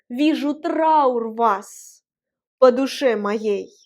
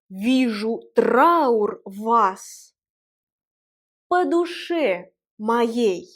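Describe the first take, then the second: First: The line is recited at a natural, normal pace. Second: The line is recited in a deliberate, careful manner.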